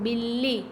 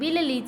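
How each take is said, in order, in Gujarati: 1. વચ્ચેનો વ્યંજન બેવડાયેલો છે, સ્વર વગર. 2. વચ્ચેનો વ્યંજન પછી સ્વર આવે છે. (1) "અડધો બોલીએ તો" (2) "આખો બોલીએ તો"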